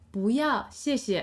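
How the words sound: It is said warmly, with a smiling voice. The refusal is friendly and polite. "if you say it with a smiley face"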